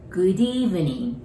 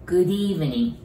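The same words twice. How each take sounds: First: Slow "Good evening" with the d running into evening; linking demo; linked d. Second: Said in the usual way. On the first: Shown as a demonstration. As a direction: link "Good" and "evening" through the d, slowly. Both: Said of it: "doといを一緒に言うときは、Dになります".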